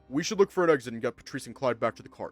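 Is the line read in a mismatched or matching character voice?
matching. It is read in the speaking character's own voice. The speaker calls it right.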